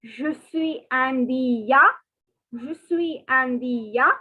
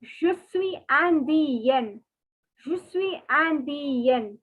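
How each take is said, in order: First: Je suis indien said slowly, ending ya; slow French, masculine. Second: Je suis indienne slowly, ending yen; slow French, feminine. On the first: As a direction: model the boys' form slowly. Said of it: "So for boys, it is". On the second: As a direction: model the girls' form slowly. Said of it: "For girls, it is". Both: Shown as a demonstration.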